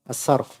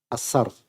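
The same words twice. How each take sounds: Both takes have the same delivery.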